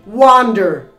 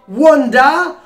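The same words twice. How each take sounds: First: It is said with an American accent. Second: It is said with a British accent. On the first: "or the American pronunciation" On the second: "according to the British pronunciation"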